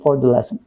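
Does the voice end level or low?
low. The phrase ends on a low pitch. The speaker calls it right. "It should be for the lesson"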